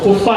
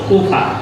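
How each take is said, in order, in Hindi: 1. पहला स्वर छोटा है। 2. पहला स्वर लंबा है।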